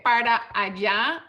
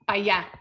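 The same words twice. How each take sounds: First: Every syllable is said in full. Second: The words are run together and shortened. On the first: "sometimes you say para allá" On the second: "this is kind of the same idea"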